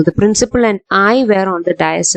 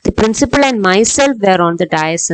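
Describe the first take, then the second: First: Slow, careful model sentence; teacher showing the correct sentence; correct example, slow. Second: Slow, careful wrong version; teacher showing the wrong sentence; wrong example, slow. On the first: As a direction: model the right form slowly. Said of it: "എന്നേ പറയൂ". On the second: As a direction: read out the incorrect form slowly. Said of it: "എന്ന് പറയില്ല". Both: Shown as a demonstration.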